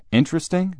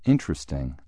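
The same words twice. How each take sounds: First: Much higher, louder disbelieving repeat; incredulous echo. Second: Said in the usual way. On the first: Acted. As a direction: throw the word back in disbelief. Father throws Jim's word back.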